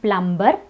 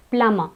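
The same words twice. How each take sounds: First: Plumber with B after the M; B wrongly sounded. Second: Plumber with only M in the middle; silent B. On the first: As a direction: say plumber as PLUM-ber. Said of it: "It's not plumber". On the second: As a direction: say plumber as PLUM-uh. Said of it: "the B is silent". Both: Shown as a demonstration.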